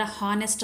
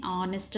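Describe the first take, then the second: First: హానెస్ట్ with the h sounded at the start; wrong pronunciation. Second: ఆనెస్ట్ with a silent h, starting on the vowel; correct pronunciation. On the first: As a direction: breathe the h in హానెస్ట్. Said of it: "హానెస్ట్ అనుకుంటారు". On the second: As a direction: begin ఆనెస్ట్ straight on the vowel. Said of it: "ఆనెస్ట్ అని పలుకుతాం". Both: Shown as a demonstration.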